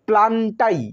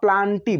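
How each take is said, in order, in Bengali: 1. শব্দটি 'eye' শব্দে শেষ হয়। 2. শব্দটি 'ee' শব্দে শেষ হয়। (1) "ইংরাজিতে প্লান্টাই বলা হয়" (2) "বাংলায় লেখা রয়েছে প্লান্টি"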